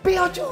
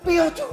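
First: It is said louder, like a shout. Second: It is said at normal loudness.

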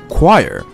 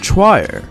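First: The word does not start with a ch sound. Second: The word starts with a ch sound. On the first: The speaker calls it right. "The correct pronunciation is choir" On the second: The speaker calls it wrong. "If we just say this based on how it's spelled, we would pronounce it as"

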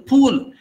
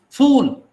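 First: The word begins with a p sound. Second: The word begins with an f sound. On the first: The speaker calls it wrong. "They say pool" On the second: The speaker calls it right. "It is not pool, it is fool"

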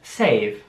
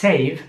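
First: The word is said slowly and drawn out. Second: The word is said at normal speed.

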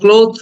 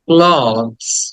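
First: The word ends with a 'th' sound. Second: The word ends with a 'z' sound. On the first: The speaker calls it wrong. "আমরা ক্লোথ বলি, ক্লোথ না" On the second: The speaker calls it right. "অ এবং লাস্টে জ"

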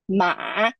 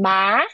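First: The syllable dips low and then rises. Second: The syllable is said with a rising pitch. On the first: It means horse. "it's horse" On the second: It means numb. "it's numb"

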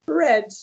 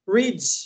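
First: The vowel is short, like in 'red'. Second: The vowel is long, like in 'reed'. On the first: It is the past tense. "escreveu igual, mas pronunciou diferente" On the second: It is the present tense. "Read no passado é read"

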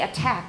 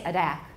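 First: The T is a crisp, voiceless 't' sound. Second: The T is a soft, voiced tap like a quick 'd'. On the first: The speaker calls it right. "We say attack" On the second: The speaker calls it wrong. "we don't say attack"

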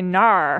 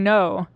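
First: The word ends in a drawn-out 'ar' vowel. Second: The word ends in a plain 'oh' vowel. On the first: "they'll say narr" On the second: "instead of saying no"

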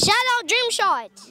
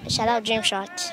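First: It is said loudly, with lots of energy. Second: It is said flatly, with little energy.

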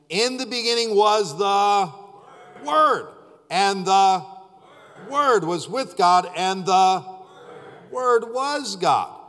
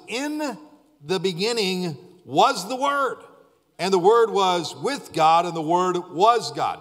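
First: It is read more slowly. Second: It is read at normal speed.

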